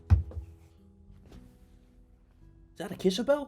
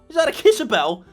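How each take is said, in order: First: It is said in a calm, plain way. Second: It is said with much more enthusiasm.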